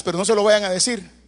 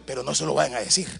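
First: Said in the usual way. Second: Dropped low and soft, like sharing a secret; secret aside. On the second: Acted. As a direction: hush it to the congregation, conspiratorially. (en voz baja y cómplice, como un secreto)

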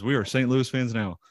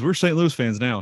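First: "are" spelled out in full and leaned on; stress on ARE. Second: Raised-pitch, eager declaration; excited dad. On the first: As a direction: insist on "are", higher than usual. Dad repeats it, stressing the verb. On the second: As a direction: declare it like a newly converted fan. Dad declares new team loyalty. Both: Retold or imitated.

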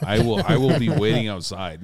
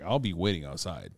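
First: Mock threat. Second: Said in the usual way. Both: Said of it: "No, I was like".

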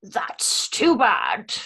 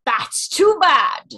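First: Aslan quote. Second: Slow, loud, commanding lion line; slow booming lion king voice; booming Aslan quote. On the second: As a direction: roar it out slowly like a great lion. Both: Retold or imitated. Voice quote impressions game.

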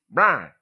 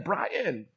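First: Loud Brian squashed into "Brah"; one-syllable Brian. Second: Brian with both syllables, "Bry-in"; higher, clearly sounded second syllable in Brian; two-syllable Brian. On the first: Retold or imitated. Learner failing to repeat the name, one-syllable Brian. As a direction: drop the second syllable of Brian, loudly. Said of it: "turning single syllable words into double syllable words". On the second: Shown as a demonstration. Preacher modeling his name for learners, two-syllable Brian. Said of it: "Can you say in?".

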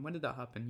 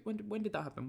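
First: Quiet deadpan echo; muttered aside. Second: High, incredulous question; mock disbelief. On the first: Pretend. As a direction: mumble it like a private joke. Repeats the joke under his breath. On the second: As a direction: act like it never happened. Mock pretending season never happened.

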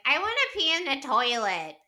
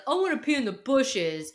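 First: Higher, prim put-on voice answering him; mock prissy wife. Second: Higher, dopey put-on bro voice; mock drunk bro. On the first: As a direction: play the wife being primly proper. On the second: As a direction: play it like a silly drunk guy. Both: Kyle vs Amanda mocked.

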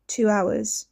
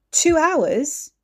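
First: Said in the usual way. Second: Shocked question, higher and louder; stunned at the time; disbelief. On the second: Acted.

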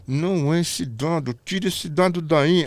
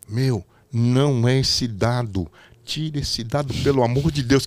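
First: Slow, insistent earpiece order; repeated urgent order. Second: Slow, pleading voice in the earpiece; anxious director. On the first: Director repeating the order, slow and insistent. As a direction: press it, slow and firm. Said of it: "Só que eu não tô sabendo". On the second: Director pleading over the earpiece, slow and urgent. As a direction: beg him to swap the die. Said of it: "O Renato me fala pra mim no ponto". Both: Retold or imitated.

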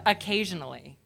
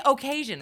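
First: Said in the usual way. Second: "occasion" said as "oh-kay-zhun"; Midwest long O. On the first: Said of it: "you say occasion instead of occasionally". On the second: Retold or imitated. Speaker from Maine mimicking Midwesterners, "occasion" with a long "oh". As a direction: lean on a full "oh" to start "occasion". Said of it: "you say occasion instead of".

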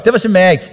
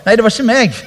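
First: Said in the usual way. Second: Mock denial. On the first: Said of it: "Nå misforstår dere". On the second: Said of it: "og så bare".

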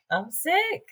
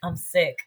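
First: Much higher, softer repeat; high-pitched squeak. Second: Said in the usual way. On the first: Real, not acted. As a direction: squeal it in disbelief.

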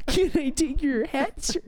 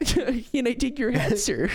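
First: Higher, slow fancy waiter; posh bartender voice. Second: High, slow fancy waiter; overly polite, laughing through it; posh bartender voice. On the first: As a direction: play the stuffy butler, slowly. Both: Pretend.

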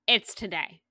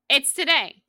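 First: Said in the usual way. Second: Higher and louder, TODAY stressed; excited emphasis. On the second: Shown as a demonstration. Host insisting the announcement comes today, excited.

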